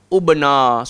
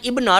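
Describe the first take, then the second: First: The word begins with a u vowel. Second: The word begins with an i vowel. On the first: The speaker calls it wrong. "tak boleh baca ub ubna" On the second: The speaker calls it right. "kita kena start dengan ibna lah"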